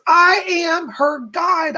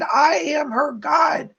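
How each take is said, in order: First: High, slow, shouted declaration; relayed screaming spirit. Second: High, slow shout with a cry in it; the spirit cries out her claim a second time; screaming, near crying. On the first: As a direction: shout it out slowly, like a spirit demanding to be heard. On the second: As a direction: shout it again as if close to tears. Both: Retold or imitated. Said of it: "this person jumping up and down screaming".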